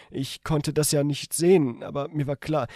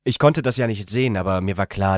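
First: Higher female character voice by mistake; misread in woman's voice. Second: Said in the usual way. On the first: Shown as a demonstration. The reader wrongly voices narration as the woman, higher. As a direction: read narration as her line. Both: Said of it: "Anführungszeichen!".

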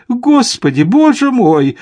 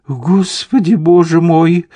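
First: Very high, louder cry of alarm; panicked exclamation. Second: High-pitched flustered exclamation; gasped-out appeal to God in mild panic; alarmed babble. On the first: Lady Cameron as the pack bears down, panicked exclamation. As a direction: wail it as panic mounts. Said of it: "опять воскликнула леди Кэмерон". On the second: Lady Cameron seeing riders gallop at them, alarmed babble. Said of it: "пролепетала леди Кэмерон". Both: A narrator's reading.

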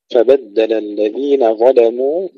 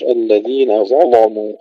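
First: ظلموا with a thin, light lam. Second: Heavy, full lam in ظلموا; ظلموا with a thick, emphatic lam as in Warsh; Warsh reading. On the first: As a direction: recite ظلموا with heavy ظ but a light lam. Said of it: "واللام طبعًا عند ورش مفخمة". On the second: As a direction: recite ظلموا with the lam darkened. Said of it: "وعند ورش". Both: Shown as a demonstration.

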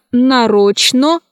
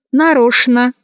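First: Slow нарочно, cut as нароч-но; spelling pronunciation. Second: Нарочно said as нарошна; CHN as SHN. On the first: Teacher showing how нарочно is written, spelled-out reading. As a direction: keep clear Ч and final О in нарочно. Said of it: "Пишется". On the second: Teacher showing how нарочно is pronounced, SH sound. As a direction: use Ш for Ч in нарочно. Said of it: "произносится". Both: Shown as a demonstration.

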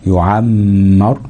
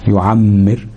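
First: يعمر slow, with a long hum on م; held ghunna. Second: Said in the usual way. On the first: Shown as a demonstration. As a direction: hold the doubled م inside يعمر. (يعمر بغنة ممدودة على الميم) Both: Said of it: "الميم المشددة في وسط الفعل".

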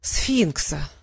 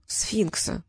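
First: Low, resigned repeat; nodding acknowledgement. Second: Soft, meek confession; timid babble. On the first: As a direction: take it in grimly. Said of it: "кивнул Щавель". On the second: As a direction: own up in a small, timid voice. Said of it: "пролепетал Трикс". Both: A narrator's reading.

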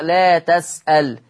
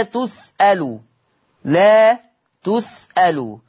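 First: تَسألْ slowly with open ta and silent lam; Warsh reading. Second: تُسألُ with damma on ta and lam; Hafs reading. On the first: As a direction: say تَسألْ with fatha on ta, lam still. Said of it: "بيفتح التاء ... وسكون اللام". (لا تَسألْ بفتح التاء وسكون اللام) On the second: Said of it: "تقرأ هذه الكلمة في حفص بضم التاء واللام". (تُسألُ بضم التاء واللام) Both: Shown as a demonstration.

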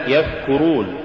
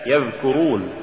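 First: "يذكرون" with th as in think for dhal; dhal becomes tha. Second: Said in the usual way. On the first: Shown as a demonstration. Teacher showing an error, "يذكرون" said with tha for dhal. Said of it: "تقرأ لحنا". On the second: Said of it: "استبدال الذال بالثاء".

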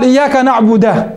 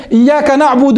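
First: نعبد said with a at the end, naعbuda; إياك نعبد with a fatha on the دال, slow; demonstrating the error: نعبدَ; wrong vowel demo. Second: Said in the usual way. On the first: Shown as a demonstration. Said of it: "بفتح الدال". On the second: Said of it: "لو قال".

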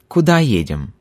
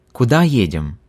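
Both takes have the same delivery.

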